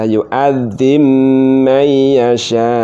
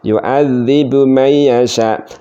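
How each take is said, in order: First: The b sound is merged into the m. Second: The b sound is kept before the m. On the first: A permitted but less common reading. "cukup dibaca yu'adzim mayyasha" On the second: The reading most scholars use. "yang mayoritas ya ulama-ulama kita kalau membaca yu'adzibu mayyasha, nah seperti itu"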